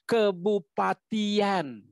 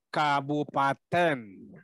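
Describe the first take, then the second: First: The word ends with a two-vowel -ian sound. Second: The word ends with a single-vowel -en sound. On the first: It is hard to say. The speaker calls it wrong. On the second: It is shortened to be easier to say. The speaker calls it right.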